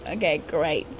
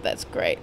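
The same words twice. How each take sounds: First: Said in the usual way. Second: Breathy whisper. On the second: Real, not acted. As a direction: whisper it to yourself. Repeats line in a whisper.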